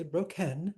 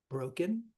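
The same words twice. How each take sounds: First: Bro-KEN, second syllable punched with a full E; broken said as bro-KEN; wrong-syllable stress. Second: Said in the usual way. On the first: Shown as a demonstration. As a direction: throw the weight onto the KEN of broken. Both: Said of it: "We don't say broken".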